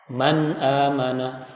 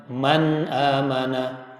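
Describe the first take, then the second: No difference in how they are said.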